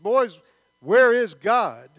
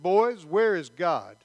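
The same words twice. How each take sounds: First: It is said louder, with a raised voice. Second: It is said at a normal, softer volume.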